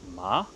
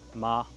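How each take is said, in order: First: The pitch rises from lower to higher. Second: The pitch stays high and level throughout. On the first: It sounds like surprise or astonishment. "c'est quelque chose qui va monter comme ça" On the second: It sounds emotionless, like saying something monotonously. "c'est la même tonalité. Pour le premier ton, pas d'émotion"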